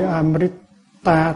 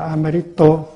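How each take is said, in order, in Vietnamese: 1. Từ này kết thúc bằng nguyên âm 'a'. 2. Từ này kết thúc bằng nguyên âm 'o'. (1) "Thay vì Amrita" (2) "thì đọc là Amrito, tại vì ở đây có chữ U nữa"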